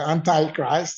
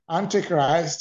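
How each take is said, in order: First: It is said in an American accent. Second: It is said in a non-American accent.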